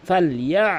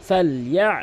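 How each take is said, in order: No difference in how they are said.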